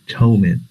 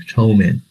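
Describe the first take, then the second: Both takes have the same delivery.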